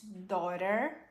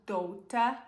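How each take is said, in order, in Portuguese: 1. Ela é falada com sotaque americano. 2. Ela é falada com sotaque britânico.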